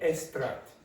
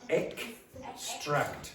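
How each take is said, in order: First: The 'x' is not said as a full 'ks'. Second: The 'x' is said as a full 'ks'. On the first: The speaker calls it wrong. "this is what happens a lot of you. You go like that, and you say extract. It's not" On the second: The speaker calls it right. "It's extract. No, no, ek"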